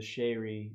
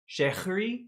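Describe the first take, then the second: First: The H sound in the middle is left out. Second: The H sound in the middle is pronounced. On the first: "You just forgot to pronounce the H" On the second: "like you would pronounce the H in that?"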